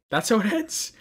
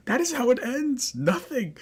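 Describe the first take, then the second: First: Much higher, louder, rising indignation; outraged disbelief. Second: "is" hit hard, much higher and louder; stress on is. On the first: Vlogger outraged at the anime's ending, high indignant disbelief. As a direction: cry it out in disbelief. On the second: Vlogger repeating the ending in outrage, "is" stressed high and loud. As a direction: lean on "is" in indignant disbelief. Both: Real, not acted.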